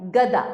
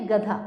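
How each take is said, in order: First: गदा with a plain unaspirated द; pronunciation demo. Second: गधा with a breath-released ध; pronunciation demo. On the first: Teacher naming a picture for pupils, clear demo of गदा. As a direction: say गदा crisply, no puff of air on दा. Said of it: "द में आ की मात्रा दा". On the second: Teacher contrasting the second picture word, clear demo of गधा. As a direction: say गधा with aspiration on धा. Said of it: "ध में आ की मात्रा धा". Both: Shown as a demonstration.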